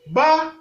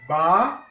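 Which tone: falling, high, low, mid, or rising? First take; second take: high; rising. First: The syllable has a high level tone. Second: The syllable has a rising tone. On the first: "Ton haut" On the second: "Ton montant"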